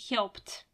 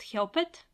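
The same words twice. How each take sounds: First: The ending is just a short t sound. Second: The ending is said as an extra syllable. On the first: The speaker calls it right. "It's pronounced helped" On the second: The speaker calls it wrong. "It is not pronounced helped"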